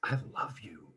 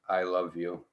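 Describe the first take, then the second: First: It is said with strong emotional energy. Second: It is said flatly, without energy.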